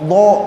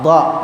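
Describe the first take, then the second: First: The sound is made with the lips pushed forward. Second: The sound is made without rounding the lips. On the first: The speaker calls it wrong. "memonyong bibirnya nih, salah" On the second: The speaker calls it right. "nggak pakai bibir"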